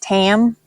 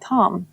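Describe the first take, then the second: First: The vowel is the 'a' of 'cat'. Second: The vowel is the 'o' of 'top'. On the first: This is thought to be the correct pronunciation. "I think it's pronounced Tam" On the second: This is the habitual, preferred pronunciation. "I just say Tom"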